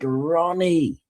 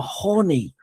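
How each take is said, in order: First: The name begins with an R sound. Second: The name begins with an H sound. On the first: It is heard as the name. The speaker calls it right. "you got to pronounce it like Ronnie" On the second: It sounds like a rude word. The speaker calls it wrong. "he naturally said the R like an H"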